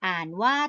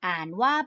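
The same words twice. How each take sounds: The two takes are said the same way.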